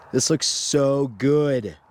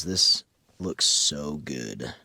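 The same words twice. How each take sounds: First: Impressed. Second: Low, slow, awed hush; in amazement. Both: Shown as a demonstration. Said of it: "we're just gonna do this in amazement".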